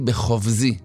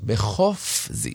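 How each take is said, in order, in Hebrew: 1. העיצור האמצעי הוא צליל v. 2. העיצור האמצעי הוא צליל f. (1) "אם החזן לא מדקדק, אז הוא קרא את זה ככה... כביכול הפי הופך להיות בית" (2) "שמה פי, צריך להדגיש"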